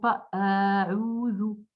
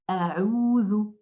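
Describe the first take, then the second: First: The first vowel is drawn out long. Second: The first vowel is kept short. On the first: The speaker calls it wrong. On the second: The speaker calls it right. "la fatha qui est courte"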